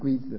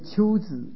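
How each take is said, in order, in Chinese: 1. 第一个字读 gui。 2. 第一个字读 qiu。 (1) "那就不能念龟兹了" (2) "念秋兹"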